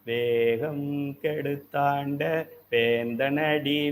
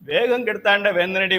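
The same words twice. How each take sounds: First: The phrase is said slowly and deliberately. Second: The phrase is rushed out very quickly. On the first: The recitation is savoured with devotion. The speaker calls it right. "கொஞ்சம் ஸ்லோவா சொல்லிட்டு" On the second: The recitation is hurried through without feeling. The speaker calls it wrong. "அவசர அவசரமா"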